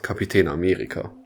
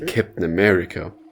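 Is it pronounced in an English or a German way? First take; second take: German; English. First: It is pronounced the German way. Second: It is pronounced the English way. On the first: "and not Captain America" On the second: "we use the English terms of things. Like, we also say Captain America"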